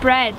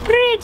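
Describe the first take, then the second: First: The vowel is an ordinary 'e', like 'bred'. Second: The vowel sounds close to 'i', like 'brid'. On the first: It is the ordinary everyday pronunciation. "instead of bread" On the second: It imitates a posh royal pronunciation. "she says like bread"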